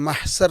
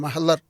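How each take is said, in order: First: The consonant after 'mah' is an S sound. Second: The consonant after 'mah' is an L-like sound. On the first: This is the everyday local form of the word. "മലയാളത്തിൽ സാ ആയിട്ടാണ് നമ്മൾ ഉച്ചരിക്കാറുള്ളത്" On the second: This is the original form in the source language. "അറബിയിൽ ലാ"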